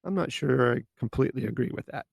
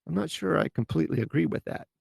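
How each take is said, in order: First: Calm, polite doubt with stress on not; gentle disagreement. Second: Gentle disagreement. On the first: Showing listeners the tactful way to disagree, calm. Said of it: "Much better than". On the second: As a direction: ease into disagreeing kindly. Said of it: "That's a lot less harsh than". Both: Shown as a demonstration.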